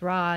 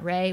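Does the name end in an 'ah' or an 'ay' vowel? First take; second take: ah; ay. First: The name ends in an open 'ah' vowel. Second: The name ends in an 'ay' vowel. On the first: "I'm saying it's Ra" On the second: "not Ray"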